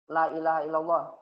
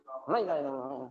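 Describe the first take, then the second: First: The vowel in 'la' is cut short. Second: The vowel in 'la' is held long. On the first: Truly there is a god other than God. The speaker calls it wrong. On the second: There is no god but God. The speaker calls it right.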